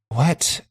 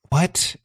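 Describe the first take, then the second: No difference in how they are said.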